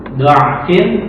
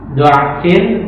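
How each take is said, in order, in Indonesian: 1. Vokal pertama adalah bunyi 'a' terbuka. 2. Vokal pertama adalah bunyi 'a' terbuka.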